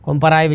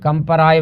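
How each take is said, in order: First: The first vowel sounds like 'o'. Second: The first vowel sounds like 'a'. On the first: The speaker calls it wrong. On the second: The speaker calls it right.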